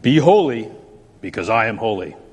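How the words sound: It sounds stern and threatening.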